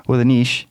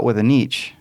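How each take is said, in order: First: "niche" said as "neesh"; corrected niche. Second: "niche" said as "neetch"; "niche" with long ee and a tch ending; blended niche. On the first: Cohost correcting the slip, "niche" said "neesh". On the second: Cohost mixing up both versions, "niche" said "neetch". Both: Real, not acted. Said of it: "now I'm combining them".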